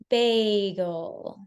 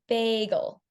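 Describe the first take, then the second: First: The whole word is said slowly. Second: Only the start is slow, then it speeds up. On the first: The speaker calls it right. "pay attention to my rate when I say it this time" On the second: The speaker calls it wrong. "You only used a slow rate at the beginning of the word"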